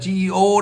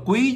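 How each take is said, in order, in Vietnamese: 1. Từ này nghe như 'gee-oh', hai âm tiết. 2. Từ này nghe như 'gwee', một âm tiết. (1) "chứ không phải là GEO đâu" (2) "GEO là quý chứ không phải là GEO đâu"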